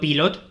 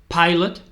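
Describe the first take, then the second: First: It is said with Spanish-style pronunciation. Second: It is said with English pronunciation. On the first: It names the pen brand, not the job. The speaker calls it wrong. "no pilot como los bolis" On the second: It names the job of flying planes. The speaker calls it right. "es pilot"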